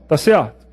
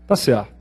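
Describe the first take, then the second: First: Tá certo? asked as a question to the class; quizzing question. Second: Tá certo said lower and softer as a final answer. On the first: Teacher asking whether the statement is correct: Tá certo? as a question. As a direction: pose Tá certo? to the students. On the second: Teacher answering his own quiz question: a low, conclusive Tá certo. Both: Shown as a demonstration. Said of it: "quiz question then answer".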